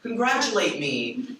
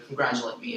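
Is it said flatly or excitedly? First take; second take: excitedly; flatly. First: It is said excitedly, with exclamation. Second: It is said flatly, without excitement.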